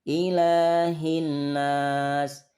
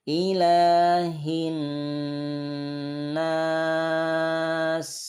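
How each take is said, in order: First: The nasal n sound is rushed and short. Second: The nasal n sound is held for three beats. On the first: The speaker calls it wrong. "Kalau semua dengungan itu buru-buru, maka dengungan itu tidak sempurna" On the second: The speaker calls it right. "Dia ditahan tiga ketukan"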